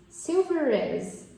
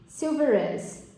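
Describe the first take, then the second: No difference in how they are said.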